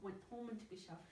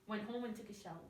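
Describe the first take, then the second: First: The t sound in went is kept but faint. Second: The t sound in went is dropped entirely. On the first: The speaker calls it right. "Keep it there, but it's very faint" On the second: The speaker calls it wrong. "I'm not saying"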